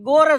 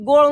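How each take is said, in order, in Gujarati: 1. આ શબ્દ R અવાજથી પૂરો થાય છે. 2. આ શબ્દ મૂર્ધન્ય L અવાજથી પૂરો થાય છે. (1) "ગોર જ બોલે" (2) "ગોળ ન બોલીએ"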